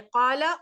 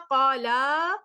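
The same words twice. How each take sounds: First: The final vowel is short. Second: The final vowel is drawn out long. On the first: One person said it. "उस एक ने कहा" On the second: Two people said it. "उन उन दो ने कहा"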